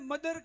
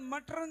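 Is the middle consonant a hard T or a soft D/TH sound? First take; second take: soft D/TH; hard T. First: The middle consonant is a soft D sound. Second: The middle consonant is a hard T sound. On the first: The speaker calls it right. "ने मदर के" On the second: The speaker calls it wrong. "मटर नहीं"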